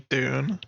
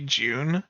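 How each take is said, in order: First: The word starts with a plain D sound. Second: The word starts with a J sound. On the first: This is the American way of saying it. "I feel like I'm too fucking Americanized, man. I say Dune" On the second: This is the British way of saying it. "A lot of Brits say June, as in like with a J"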